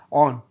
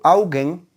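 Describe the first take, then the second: First: The word is squeezed into one short syllable. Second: Both syllables are pronounced fully and clearly. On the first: "te dicen on" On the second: "nadie te dice augen"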